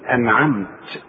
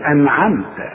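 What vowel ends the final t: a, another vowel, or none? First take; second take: none; a. First: The final t has no vowel after it. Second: The final t carries a short a vowel. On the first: "وإذا وقفت بسكن الحرف بقول أنعمت" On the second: "التاء حاذر إنها تبقى مفتوحة"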